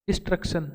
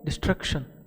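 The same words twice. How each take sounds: First: It is said with an Indian accent. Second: It is said with a British accent.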